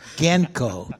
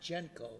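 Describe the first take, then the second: First: The word begins with a hard G sound. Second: The word begins with a soft J sound. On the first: The speaker calls it right. "Because it was named after the Ginsberg brothers" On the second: The speaker calls it wrong. "Not Genco"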